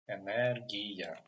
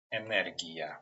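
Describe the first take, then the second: First: Energia drawn out as "e-ner-GI-ya", hard g; slow pronunciation demo. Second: Said in the usual way. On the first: Shown as a demonstration. Teacher repeating for learners, Energia slow by syllables with hard g. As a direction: sound out Energia slowly with a hard g. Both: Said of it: "letter that pronounced like G".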